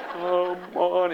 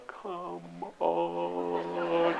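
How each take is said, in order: First: Said in the usual way. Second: Much softer, stretched come on; slow motion. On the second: Retold or imitated. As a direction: drag the words like a slowed-down tape. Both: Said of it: "in slow motion".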